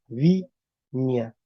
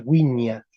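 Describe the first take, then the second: First: "viña" starting with a voiced v consonant; consonant V onset. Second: "wiña" starting with a rounded w glide; W onset. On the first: Teacher shows W turned consonant, V onset. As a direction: say "viña" as vin-ya, no w glide. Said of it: "se sonoriza". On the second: Teacher applies rule five for the class, W onset. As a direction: say "wiña" as win-ya. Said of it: "entonces aplico P cinco". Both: Shown as a demonstration.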